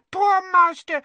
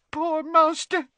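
First: High elf voice, louder wail; the lament breaks out loud. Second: A first tearful murmur; weepy elf. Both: A narrator's reading. Elf weeping for her master.

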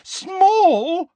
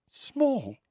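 First: Much higher and louder, rising; shrill disbelief. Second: Startled echo. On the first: Hermione repeating the word, now shrill and loud. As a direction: shriek it in outraged disbelief. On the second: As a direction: echo it back in disbelief. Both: A narrator's reading. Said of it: "said Hermione".

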